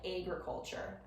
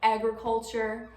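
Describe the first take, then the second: First: The first vowel is raised, Wisconsin-style. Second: The first vowel is plain and unraised.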